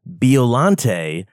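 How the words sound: The name is pronounced the American way. "I've heard American people actually say Biollante"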